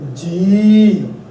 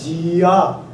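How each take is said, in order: First: The word ends in a prolonged 'ee' sound. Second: The word ends with an added 'a' sound. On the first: The speaker calls it right. "Just actually prolong the sound of Bihari and you call it G" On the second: The speaker calls it wrong. "the way you pronounce it is not Gia"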